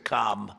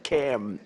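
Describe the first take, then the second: First: The vowel is an open, broad 'ah' sound. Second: The vowel is a short front 'a' sound. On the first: This is how a disliked namesake's name is said. "as opposed to Calm. Well, we don't like Calm" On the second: This is how the present leader's name is said. "It's Cam, right? Cam, as opposed to"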